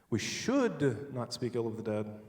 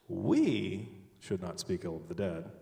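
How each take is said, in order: First: The word 'should' is stressed. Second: The word 'we' is stressed. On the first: It is wrong, but it will be done anyway. "but we're going to anyway" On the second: Someone else may say bad things about them. "but someone else can"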